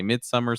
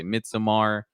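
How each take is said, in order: First: Midsummer said as the plain English word; English pronunciation. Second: Midsommar with a full "so-mar" ending; Swedish-style pronunciation. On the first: Cohost showing how some people say the title, Midsummer as plain English. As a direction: end Midsummer in a short, unstressed "mer". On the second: Cohost showing the other way people say it, Midsommar ending in "mar". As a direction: open out the last vowel of Midsommar to "mar". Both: Shown as a demonstration. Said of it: "no idea how to pronounce".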